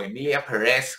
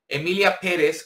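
First: The name is pronounced the French way. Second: The name is pronounced the Spanish way.

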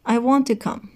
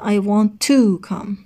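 First: The word 'to' is said weakly and reduced. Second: The word 'to' is said fully and strongly. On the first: "خیلی ضعیف تلفظ کرد" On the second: "نگفت مثلا"

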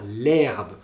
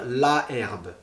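First: The article's vowel is dropped before herbe. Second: The article keeps its full vowel before herbe. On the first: The speaker calls it right. "on va dire l'herbe" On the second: The speaker calls it wrong. "on ne va pas dire la herbe"

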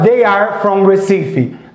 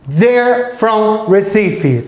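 First: They and are are said as two words. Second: They and are merge into one syllable.

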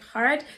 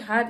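First: The r sound is clearly pronounced. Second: The r sound is dropped. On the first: This version was adopted so listeners would understand. "it's like hard" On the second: Listeners could not understand this version. "I don't say hard"

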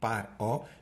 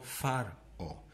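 First: The word begins with a p sound. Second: The word begins with an f sound. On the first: The speaker calls it right. "Par o y no far o" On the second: The speaker calls it wrong. "no far o"

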